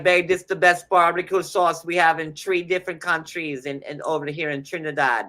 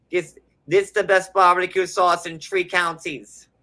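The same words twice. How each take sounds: First: Put-on channel a Trinidadian accent as the wife; amateur Trinidadian accent impression. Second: Put-on higher, louder Trinidadian accent take; second try at a Trinidadian accent. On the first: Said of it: "I never tried to Trinidadian accent before, but I'm trying to channel it". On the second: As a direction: push the Trinidadian accent harder. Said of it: "but I'm trying to channel it".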